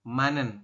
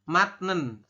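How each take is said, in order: First: The first syllable ends in an n sound. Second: The first syllable ends in a t sound. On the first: The speaker calls it right. "tapi dibacanya adalah manen seperti ini" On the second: The speaker calls it wrong. "Kita bacanya bukan matnen"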